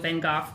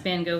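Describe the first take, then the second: First: The name is said with Dutch sounds. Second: The name is said with English sounds.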